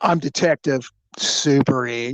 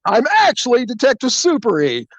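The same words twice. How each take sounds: First: Said in the usual way. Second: High-pitched, emphatic announcement; spring the big gotcha; hammed-up detective unmasking himself; triumphant reveal. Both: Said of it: "like I did the aha".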